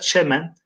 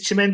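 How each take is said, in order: First: The first vowel is an e sound. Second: The first vowel is an i sound. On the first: This is the original form found in old poems. "orijinal arkadaşlar çemen" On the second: This is the form used today. "Biz çimen diyoruz"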